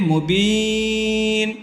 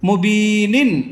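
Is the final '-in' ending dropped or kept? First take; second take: dropped; kept. First: The word ends abruptly on the 'n' sound. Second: The word ends with a full '-nin' sound. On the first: The reciter stops at this word. "অক্ফ যেহেতু আছে অক্ফ করলে কি হবে মুবিন" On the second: The reciter continues without stopping. "নুন দুই জের নিন কি হবে মুবিনিন"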